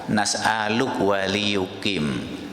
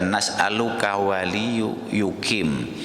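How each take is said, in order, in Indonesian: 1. Kata pertama berakhir pendek, tanpa 'ka' di akhir. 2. Kata pertama berakhir penuh, dengan 'ka' di akhir. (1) "itu k-nya itu tidak usah dibaca" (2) "Kalau dibaca nas'aluka itu ketukannya jadi berlebihan"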